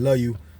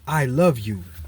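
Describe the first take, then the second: First: It is said casually, in passing. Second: It is said earnestly, with full attention.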